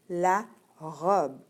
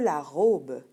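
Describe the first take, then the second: First: The final e is barely heard. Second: The final e is fully pronounced. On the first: The speaker calls it right. "on le prononce, mais pas vraiment à la fin" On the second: The speaker calls it wrong. "On ne dit pas"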